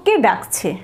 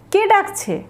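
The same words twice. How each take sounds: First: Said in the usual way. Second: কে ডাকছে? asked high, with কে stressed; asking who is calling, in a clearly higher questioning voice; high questioning take. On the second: Shown as a demonstration. Teacher models কে ডাকছে? as a high, surprised question. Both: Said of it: "পরেরটা দেখব".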